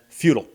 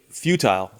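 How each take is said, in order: First: The second syllable is reduced and weak. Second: The second syllable is fully and clearly pronounced. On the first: "than futile" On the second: "I'd rather say futile"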